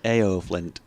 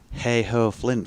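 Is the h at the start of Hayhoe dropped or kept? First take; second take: dropped; kept. First: The h at the start is dropped. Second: The h at the start is pronounced. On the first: "You'd say Ayo Flint" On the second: "in Barnsley you wouldn't say Hayhoe Flint"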